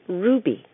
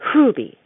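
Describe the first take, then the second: First: It starts directly with an r sound. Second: It starts with a breathy h before the r. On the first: "like the gem" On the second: "aspirate that H"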